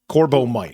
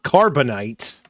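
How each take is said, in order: First: It is pronounced corbomite, ending in -mite. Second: It is pronounced like carbonite, ending in -nite. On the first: The speaker calls it right. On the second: The speaker calls it wrong. "not Carbonite"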